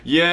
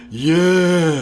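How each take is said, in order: First: It is said in a natural, clear voice. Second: It is said in a husky, breathy voice.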